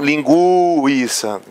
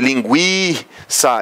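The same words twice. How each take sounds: First: The u sound in 'gui' is held longer. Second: The i sound in 'gui' is held longer. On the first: The speaker calls it wrong. "e não linguiça" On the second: The speaker calls it right. "você prolonga mais o I"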